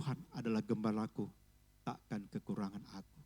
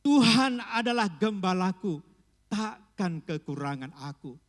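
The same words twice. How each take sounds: First: It is spoken at an ordinary, calm volume. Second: It is spoken strongly in a loud voice.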